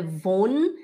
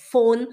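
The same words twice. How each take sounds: First: Von starting with a buzzing v; voiced v. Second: Von said as "fon"; f sound. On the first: Teacher showing the mistake, von with voiced v. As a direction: say "von" with an English-style v. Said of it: "não é von". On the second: Teacher correcting, von pronounced with an f. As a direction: start "von" with a crisp f. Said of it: "é von". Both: Shown as a demonstration.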